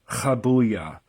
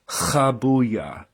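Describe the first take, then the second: No difference in how they are said.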